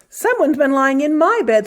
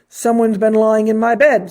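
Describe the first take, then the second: First: It is said in a medium, ordinary voice. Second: It is said in a deep, gruff voice.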